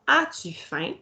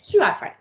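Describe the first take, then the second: First: Said in the usual way. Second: «Tu as faim?» higher, with a rising question tune; declarative version. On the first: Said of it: "je pose une question". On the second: Shown as a demonstration. Teacher contrasting the declarative question with the inverted one. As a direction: lift «Tu» high and louder. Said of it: "si j'avais une phrase déclarative".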